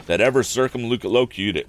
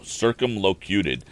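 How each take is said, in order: First: Said in the usual way. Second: Circumlocuted said slowly, every syllable drawn out; savoring the word. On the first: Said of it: "Wow, circumlocuted". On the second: Shown as a demonstration. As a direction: roll circumlocuted out slowly in amusement. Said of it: "I don't know anybody who's ever said those words".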